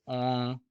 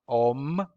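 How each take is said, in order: First: It ends on a nasal vowel, no consonant. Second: It ends with a full m consonant. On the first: The speaker calls it right. "but it's on. It's just an indication that's nasal" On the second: The speaker calls it wrong. "It's not om, mm-mm"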